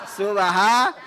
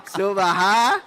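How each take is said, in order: No difference in how they are said.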